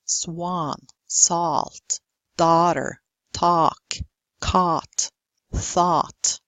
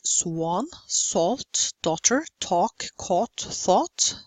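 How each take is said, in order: First: "talk", "caught", "thought" with open, unrounded ah; word by word, "daughter" as dah-ter, American style; American long ah. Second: "swan", "talk", "thought" with rounded British aw; long aw. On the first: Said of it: "They use the long ah". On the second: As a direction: round the vowel in "salt", "daughter", "caught". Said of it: "the long aw is not used". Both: Shown as a demonstration.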